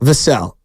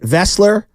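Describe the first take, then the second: First: The name ends with an 'ell' sound. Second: The name ends with a 'ler' sound. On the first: The speaker calls it right. "Like Sam Cassell" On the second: The speaker calls it wrong. "I mispronounced. Uh, I said Vessler"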